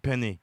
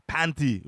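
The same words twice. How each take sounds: First: Said in the usual way. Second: "panty" in place of penny, with an open a and a t; mocking mispronunciation, "panty"; mispronounced penny. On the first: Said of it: "when you meant penny". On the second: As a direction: mimic the slip, saying "panty" for penny. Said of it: "if you didn't say".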